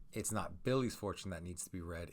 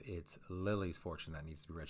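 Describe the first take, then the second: First: Billy's leaned on in the setup; stress on Billy's. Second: Lily's as the corrected name; stress on Lily's. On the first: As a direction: lightly lean on Billy's, then move on. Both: Shown as a demonstration. Contrasting whose fortune it is.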